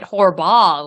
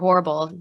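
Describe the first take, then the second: First: The name sounds like Horball, with two syllables. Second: The name sounds like the word horrible. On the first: "you could just pronounce it Horball" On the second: "that's how he pronounced it"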